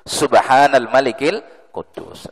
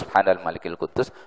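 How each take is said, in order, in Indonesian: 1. Dibaca lebih keras, suaranya dinaikkan. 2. Dibaca dengan suara biasa.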